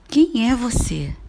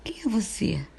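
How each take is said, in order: First: Louder, higher, slower demanding question; emphatic question. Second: Said in the usual way. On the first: Shown as a demonstration. Teacher repeating the question, louder and demanding. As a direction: demand it, stressing Quem. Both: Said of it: "As frases interrogativas".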